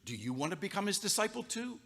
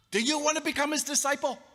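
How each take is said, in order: First: Sarcastic jab. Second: Much higher, louder sneering repeat; mocking taunt. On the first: Acted. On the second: Healed man taunting the Pharisees, shrill and loud. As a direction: needle them harder the second time. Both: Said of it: "he was prickly".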